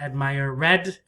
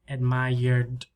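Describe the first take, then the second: First: The ending is a separate extra syllable. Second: The ending joins the last syllable. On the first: The speaker calls it wrong. "not admire red" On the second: The speaker calls it right. "the sound here"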